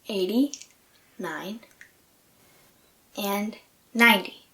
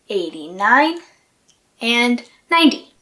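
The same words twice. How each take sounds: First: The numbers are said slowly and carefully. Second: The numbers are said at ordinary speed. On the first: "one more time slowly" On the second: "normal pace"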